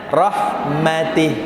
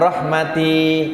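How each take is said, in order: First: The final vowel is kept short. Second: The final vowel is drawn out long. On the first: The speaker calls it right. "nah, pendek" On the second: The speaker calls it wrong. "jangan rahmati kepanjangan"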